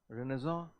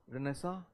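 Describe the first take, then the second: First: It is pronounced in a French-like way. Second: It is pronounced in a French-like way.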